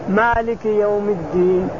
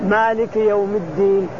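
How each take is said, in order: No difference in how they are said.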